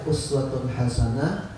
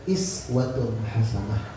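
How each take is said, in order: First: The first word begins with an u vowel. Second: The first word begins with an i vowel. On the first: "Boleh dibaca uswatun hasanah" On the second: "boleh dibaca iswatun hasanah"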